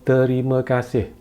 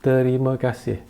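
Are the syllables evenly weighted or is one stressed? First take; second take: evenly weighted; evenly weighted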